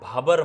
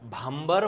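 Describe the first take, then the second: First: The first vowel is not nasalized. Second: The first vowel is nasalized. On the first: The speaker calls it right. "भाबर म्हणा" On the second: The speaker calls it wrong. "भांबर म्हणू नका याला"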